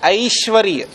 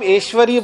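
First: The first vowel is an 'ai' glide. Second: The first vowel is a plain 'e' sound. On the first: This is the Sanskrit pronunciation. "लेकिन संस्कृत में वो होता है ऐश्वर्य" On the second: This is the common Hindi pronunciation. "तो आप ऐश्वर्य बोल सकते हैं"

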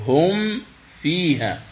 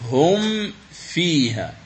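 The two takes are said the same way.

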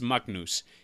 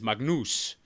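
First: The name is said the Icelandic way. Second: The name is said the Albanian way.

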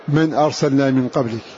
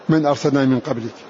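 Both takes have the same delivery.

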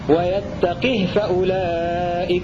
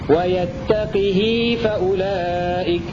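First: The h carries no vowel at all. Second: The h has a lengthened i vowel. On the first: "بكسر القاف وإسكان الهاء" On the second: "بكسر القاف والهاء وصلتها بمقدار حركتين"

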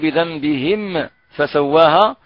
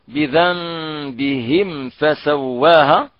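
First: The m ends with an echoing bounce. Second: The m is clear and smooth, without a bounce. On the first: The speaker calls it wrong. "من يأتي بقلقلة في الميم" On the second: The speaker calls it right. "نظهر الميم الساكنة مع باقي الحروف"

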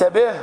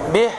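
First: The final h is weak and barely heard. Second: The final h is breathy and clearly heard. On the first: The speaker calls it wrong. "وليس به" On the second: The speaker calls it right. "بيان الهاء عند الوقف عليها"

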